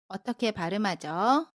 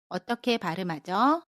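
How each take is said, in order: The two takes are said the same way.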